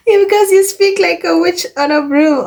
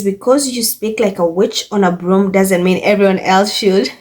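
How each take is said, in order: First: Much higher, giggling through the words; laughing repeat. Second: Said in the usual way. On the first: Real, not acted. Vlogger repeating a comment she finds hilarious, laughing. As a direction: crack up as you repeat it.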